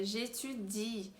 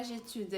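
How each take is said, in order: First: J'étudie slow, ending on a clear long I; I clearly pronounced. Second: J'étude ending on a D, no I sound; j'étude clipped at the D; wrong form. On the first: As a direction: stretch the final I of j'étudie. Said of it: "o I bem pronunciado". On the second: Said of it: "mas não é j'étude". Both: Shown as a demonstration.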